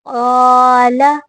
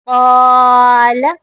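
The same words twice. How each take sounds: No difference in how they are said.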